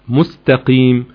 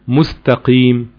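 The two takes are said the same way.

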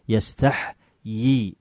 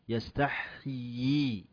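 First: The word is said with one yaa sound. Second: The word is said with two yaa sounds. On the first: The speaker calls it wrong. "وليس يستحيي" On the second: The speaker calls it right. "نقول يستحيي يستحيي يستحيي يستحيي يا إين ثنتين"

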